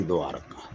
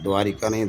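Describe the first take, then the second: First: द्वारका said as three syllables, dvaar-kaa, no "i"; द्वारका without the extra vowel; correct form. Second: द्वारिका said with the long "i", dvaa-ri-kaa; wrong form द्वारिका, four syllables; द्वारिका as the error; wrong spelling said. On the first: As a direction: correct द्वारका, softer and lower. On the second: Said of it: "तो अशुद्ध वर्तनी है द्वारिका". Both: Shown as a demonstration.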